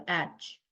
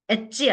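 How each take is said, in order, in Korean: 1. 자음 소리로 깔끔하게 끝나요. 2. 한국식으로 모음을 붙여서 끝나요. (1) "영어 발음을 제대로" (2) "엣지 아닙니다"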